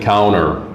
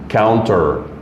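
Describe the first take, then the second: First: It is said with an American pronunciation. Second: It is said with a non-American pronunciation. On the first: "Americans say counter" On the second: "Some people say counter"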